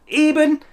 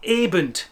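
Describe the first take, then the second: First: The word ends with an n sound. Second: The word ends with a d sound. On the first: The speaker calls it right. "the word eben" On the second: The speaker calls it wrong. "add a D to the end of the word"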